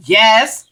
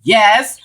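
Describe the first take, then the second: First: A clipped, dismissive "Yes." imitating the mother; curt nasty yes. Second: The same clipped, dismissive "Yes." imitating the mother; curt nasty yes. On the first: Mother answering the woman who helped her son, curtly dismissive. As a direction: say "Yes." short and cold, like brushing someone off. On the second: Retelling how the mother answered her, curtly dismissive. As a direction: repeat "Yes." short and cold, like brushing someone off. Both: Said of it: "This is exactly how she said it".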